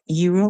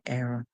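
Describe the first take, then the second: First: The first vowel is a long E. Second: The first vowel is a short E. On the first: "pronouncing the E as long E" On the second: "pronouncing it as short E"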